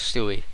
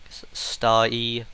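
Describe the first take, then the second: First: It is two syllables ending in an 'ee' sound. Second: It is one syllable rhyming with 'sky'. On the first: "but I guess Stewie" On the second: "I keep going back to Sty"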